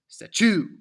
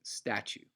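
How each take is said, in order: First: The stress is on the second syllable. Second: The stress is on the first syllable. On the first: The speaker calls it wrong. "the opposite ways of the ways um, that those words should be pronounced" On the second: The speaker calls it right. "It starts with the emphatic sta and then leads to the shorter, slightly less loud chew"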